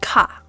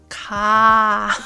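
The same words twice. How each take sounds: First: The vowel is short and clipped. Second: The vowel is held long. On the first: The speaker calls it wrong. "not ka" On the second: The speaker calls it right. "The long vowels are written with a long line"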